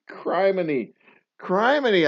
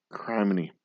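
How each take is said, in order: First: High, loud mock-shocked "Criminy."; "Criminy." laughed out twice, higher and louder; laughing criminy. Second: Said in the usual way. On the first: Real, not acted. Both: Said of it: "I said criminy out loud".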